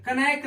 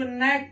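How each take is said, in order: First: कनैक with K voiced before N; mistaken sounded K. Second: नैक starting on N; silent K. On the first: Teacher warns off the misreading, कनैक with K. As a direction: put a K syllable before N in कनैक. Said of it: "कनैक नहीं पढ़ते". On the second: Teacher shows students the reading, नैक without K. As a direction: say नैक with no K before N. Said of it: "इसको नैक पढ़ते हैं". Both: Shown as a demonstration.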